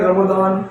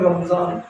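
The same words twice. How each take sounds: First: रमदान read with d in the middle; Arabic-style रमदान with a clear d. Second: रमजान read with z in the middle; Urdu-style रमजान with a clear z. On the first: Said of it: "अरबी में रमदान कहा जाता है". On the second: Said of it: "इसको उर्दू में पढ़ें". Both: Shown as a demonstration.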